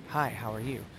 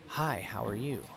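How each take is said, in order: The two takes are said the same way.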